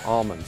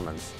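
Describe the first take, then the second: First: The word is said with an L sound. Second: The word is said without an L sound. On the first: This is how everyone else says it. "puts the L in and calls them almonds" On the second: This is how the growers say it. "everybody that grows almonds call them almonds"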